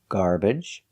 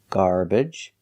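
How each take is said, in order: First: The second syllable has an uh vowel. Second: The second syllable has an uh vowel.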